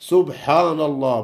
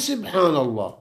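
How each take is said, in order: First: The first syllable is said with a 'u' vowel. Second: The first syllable is said with an 'i' vowel. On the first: The speaker calls it right. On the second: The speaker calls it wrong.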